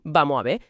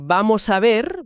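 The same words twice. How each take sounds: First: The final s and r sounds are dropped. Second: Every final consonant is clearly pronounced. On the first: The speaker calls it wrong. "te sueltan un" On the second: The speaker calls it right. "bien pronunciado"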